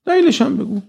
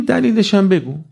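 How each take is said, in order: First: دلیلش هم بگو pitched far higher, insistent; demanding high pitch. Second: Said in the usual way. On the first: Shown as a demonstration. Preacher voices youth demanding reasons from God, high insistent pitch. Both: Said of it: "دقت کن اینا چجوری".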